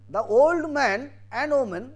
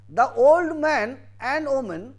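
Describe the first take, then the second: Both takes have the same delivery.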